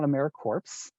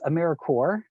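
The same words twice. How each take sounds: First: The final s sound is pronounced. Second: The final s sound is silent. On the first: The speaker calls it wrong. "not AmeriCorps" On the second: The speaker calls it right. "we just kind of ignore that S"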